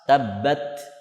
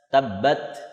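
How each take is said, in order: The two takes are said the same way.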